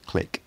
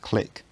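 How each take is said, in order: First: The final k is a sharp ejective pop. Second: The final k is a plain plosive release. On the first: "a voiceless velar ejective" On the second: "a voiceless velar plosive"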